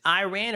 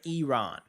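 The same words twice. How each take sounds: First: "Iran" said eye-RAN; "Iran" as eye-RAN, rhyming with man; eye-RAN pronunciation. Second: "Iran" said ee-RON; "Iran" as ee-RON, rhyming with gone; ee-RON pronunciation. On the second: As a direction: open "Iran" with "ee", broad ah in RON. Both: Shown as a demonstration. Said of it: "get that correct".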